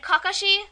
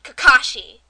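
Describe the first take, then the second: First: "Kakashi" evenly, KA-ka-shee, pitched up; correct Japanese pronunciation. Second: "Kakashi" with loud middle, kuh-KAH-shee; mocked dub mispronunciation. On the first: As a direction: say "Kakashi" lightly without leaning on the middle. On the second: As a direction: punch and stretch the KAH in "Kakashi". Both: Shown as a demonstration. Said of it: "they pronounce it Kakashi".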